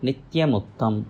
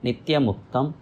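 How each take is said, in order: Both takes have the same delivery.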